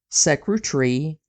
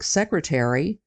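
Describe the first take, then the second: First: One syllable is dropped, British style. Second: Every syllable is said, American style.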